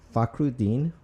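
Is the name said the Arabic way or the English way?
English. The name is said with English sounds. "I'll go ahead and pronounce it exactly how it sounds"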